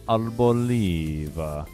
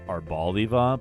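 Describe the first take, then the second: First: The word is said in an Italian-sounding way. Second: The word is said in a plain English way. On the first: "I like the Italian more" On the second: "it's probably pronounced Arboliva"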